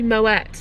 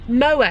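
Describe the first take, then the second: First: The final t sound is pronounced. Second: The final t sound is silent. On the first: The speaker calls it right. "supposed to be moet" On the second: The speaker calls it wrong. "moe is supposed to be"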